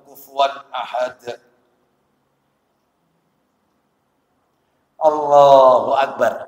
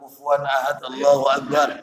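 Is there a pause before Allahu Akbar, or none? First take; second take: pause; none. First: There is a clear pause before Allahu Akbar. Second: Allahu Akbar follows at once with no pause. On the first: The reciter settles before moving on. The speaker calls it right. "Ada jeda. Tidak langsung" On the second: The reciter moves on before finishing. The speaker calls it wrong. "belum selesai dia sudah pengen pindah"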